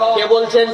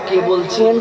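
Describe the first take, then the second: First: It is said in a harsh, curt voice. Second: It is said in a thin, soft voice. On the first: The caller is put off. The speaker calls it right. "এই মহিলা তো খুব গরম খ্যাপা" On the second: The caller is drawn in. The speaker calls it wrong. "চিকন গলায়"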